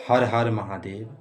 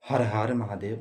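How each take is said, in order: The two takes are said the same way.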